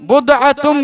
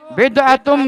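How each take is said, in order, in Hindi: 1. पहला स्वर 'u' की ध्वनि है। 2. पहला स्वर 'i' की ध्वनि है। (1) "उसमें पेश भी पढ़ा जा सकता है" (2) "ये जेर जबर"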